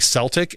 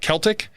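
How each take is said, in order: First: The word begins with a soft S sound. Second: The word begins with a hard K sound. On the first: "sounds like the Boston Celtics" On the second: "on purpose, said Celtic"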